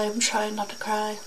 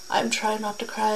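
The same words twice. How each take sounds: First: Quiet, close to tears; holding back tears. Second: Softly fighting off tears; holding back tears. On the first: Telling viewers she's close to tears, holding them back. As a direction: repeat it, still fighting the tears. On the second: Talking to viewers about the victims, holding back tears. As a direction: keep it together, barely. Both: Real, not acted.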